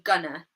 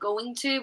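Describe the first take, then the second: First: The words blend together, ending in a schwa. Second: Both words are said fully and separately. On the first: "try to say things faster" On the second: "instead of saying going to"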